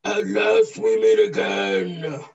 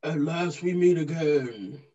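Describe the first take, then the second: First: Slow, booming villain line; booming echoing villain monologue. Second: Lightly voiced villain, barely trying; a hint of a supervillain, no effort; half-hearted villain voice. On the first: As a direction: give it everything, a big bad supervillain. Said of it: "give it all you got". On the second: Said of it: "give it a try". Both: Shown as a demonstration.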